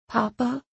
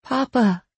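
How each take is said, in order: First: Soft, high, rising question; soft call. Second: High call that falls at the end; insistent call. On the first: Belle calling to Papa in the dark, softly. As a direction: call out gently, unsure of an answer. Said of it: "Belle called softly". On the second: Belle trying to get Papa's attention, insistent call. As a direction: call for him more firmly, voice raised in pitch. Belle calls Papa a second time. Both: A narrator's reading.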